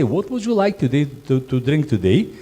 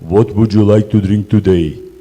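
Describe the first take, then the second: First: The question is said in a nice, polite tone. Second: The question is said in a harsh, rude tone. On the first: The guest receives the question well. The speaker calls it right. "It's going to be accept on the different way" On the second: The guest feels scared and thinks the host is rude. The speaker calls it wrong. "I'll scare them. They'll not like, "Wow, what a rude person.""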